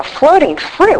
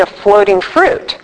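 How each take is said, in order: First: High, disbelieving question; mocking disbelief at the sponsor's odd phrase; incredulous echo. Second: Said in the usual way. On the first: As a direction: repeat it like you can't believe it.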